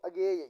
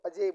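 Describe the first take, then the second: First: The middle cluster is said with a g sound. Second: The middle cluster is said with a j sound. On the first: The speaker calls it wrong. "अगर ऐसे बोलते हो ना साथियों ... ये गलत है" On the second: The speaker calls it right. "इसको अजय बोला जाता है"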